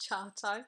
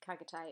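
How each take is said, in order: First: The name begins with a ch sound. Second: The name begins with a hard k sound. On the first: The speaker calls it right. "it was Ch- Chartai" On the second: The speaker calls it wrong. "wasn't Kagate"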